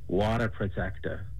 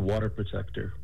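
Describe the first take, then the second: First: It is said in a Boston accent. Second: It is said in the speaker's ordinary accent.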